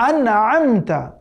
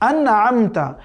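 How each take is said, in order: Both takes have the same delivery.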